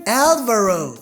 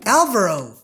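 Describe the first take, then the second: Both takes have the same delivery.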